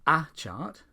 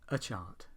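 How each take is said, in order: First: The word 'a' is said fully and stressed. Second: The word 'a' is reduced and unstressed. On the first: The speaker calls it wrong. "Instead of" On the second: The speaker calls it right. "we say"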